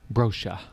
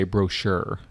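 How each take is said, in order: First: "Brochure" as "BRO-sha", without the final r; British pronunciation. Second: "brochure" as "bro-SHUR", with a clear final r; American pronunciation. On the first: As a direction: drop the r ending "Brochure", British style. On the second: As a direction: sound the American r ending "brochure". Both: Shown as a demonstration. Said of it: "In America, we say brochure".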